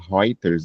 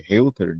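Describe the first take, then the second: First: The first vowel is said as 'oi'. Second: The first vowel is said as 'oo'.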